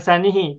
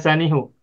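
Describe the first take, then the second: First: The final pronoun is pronounced with an i vowel. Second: The final pronoun is pronounced with a u vowel. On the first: This is the form the grammar rules predict. "Kalau secara teori dasarnya ansanihi" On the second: This is the form used in the recited reading. "cuman di situ dibacanya ansanihu"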